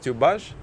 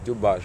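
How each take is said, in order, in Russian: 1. Слово начинается со звука t. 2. Слово начинается со звука d. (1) "Некоторые люди говорят тюбаж" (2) "на самом деле надо сказать дюбаж"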